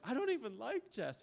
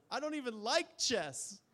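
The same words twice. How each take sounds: First: Incredulous repeat. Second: High, loud, slow mock sob of a crying child; sobbing child. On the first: Retold or imitated. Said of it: "And I was like". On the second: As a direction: wail it like a little girl in tears, much higher. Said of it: "And she says".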